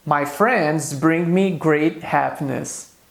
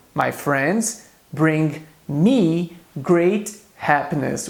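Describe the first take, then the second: First: Slow, careful example for learners; slow model sentence. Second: Very slow, drawn-out repeat of the example; very slow repetition. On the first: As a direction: read it slowly, word by word. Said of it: "Eu posso dizer em inglês". (frase lenta para os alunos) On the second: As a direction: stretch every word of the repeat for learners. (repetição bem lenta e arrastada) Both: Shown as a demonstration.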